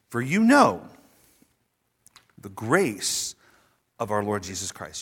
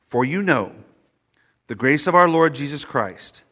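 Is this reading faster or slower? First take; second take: slower; faster. First: It is read at a slower pace. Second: It is read at a normal, quicker pace.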